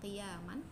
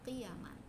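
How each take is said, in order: First: The vowel after the y is long. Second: The vowel after the y is short. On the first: It is the verbal noun of qama, meaning standing up. "bukan qiyaman" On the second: It is the plural of qimah, meaning the value of goods. "tanpa ada alif setelah huruf ya"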